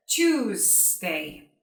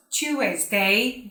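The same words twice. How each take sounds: First: Slow "Tuesday" as chooz-day; two long syllables in "Tuesday": chooz, day; correct Tuesday. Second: "Tuesday" as chu-ez-day, with an extra vowel; three syllables in "Tuesday": chu-ez-day; mispronounced Tuesday. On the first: Teacher correcting the error, slow "Tuesday" as chooz-day. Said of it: "but Tuesday". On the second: Teacher showing learners the error, "Tuesday" as chu-ez-day. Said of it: "It's not Tuesday". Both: Shown as a demonstration.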